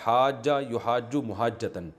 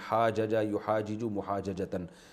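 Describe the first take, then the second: First: The two j sounds merge into one doubled sound. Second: The two j sounds are separated by a vowel. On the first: This is how it is actually read. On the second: This is the underlying form.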